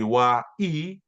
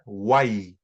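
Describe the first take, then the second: First: The vowels are said apart as two parts. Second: The vowels glide together into one syllable. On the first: The speaker calls it wrong. "rather than uh, individually" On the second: The speaker calls it right. "So you sort of just roll it together"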